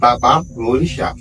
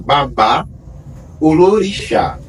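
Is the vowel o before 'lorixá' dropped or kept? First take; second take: dropped; kept. First: The o before lorixá is dropped. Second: The o before lorixá is kept. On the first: This is the shortened form used in Brazil. The speaker calls it wrong. "uma pronúncia que foi comprimida" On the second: This is the full original form. The speaker calls it right. "o correto é"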